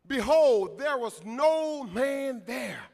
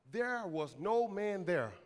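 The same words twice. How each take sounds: First: "Behold" loud, then "there was no man there" slow and loud; emphatic scripture repeat. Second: Slow, lower reading of the verse; measured scripture reading. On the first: Preacher repeating five words to the church, loud emphasis on "there was no man there". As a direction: proclaim it, drawing out "no man there". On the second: Preacher reading a verse to the church, slow and measured. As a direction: let each word land slowly, low. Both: Real, not acted.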